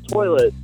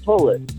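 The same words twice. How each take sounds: First: The first vowel is an ordinary 'oy' sound. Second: The first vowel sounds like a long 'oo'. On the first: "which is toilet" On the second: "she always pronounced it toilet. Like it's spelled with two O's"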